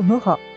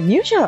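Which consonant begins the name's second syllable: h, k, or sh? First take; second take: h; sh. First: The second syllable begins with an h sound. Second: The second syllable begins with an sh sound. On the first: This is the Czech reading. "チェコ語だとムハとかになるみたい" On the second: This is the French-based reading. "フランス語の発音によるものなんですね"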